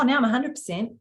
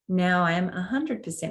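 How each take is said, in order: First: The voice is higher and harder. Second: The voice is soft and gentle. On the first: The speaker has moved back into the head. The speaker calls it wrong. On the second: The speaker is fully centred in the heart. The speaker calls it right.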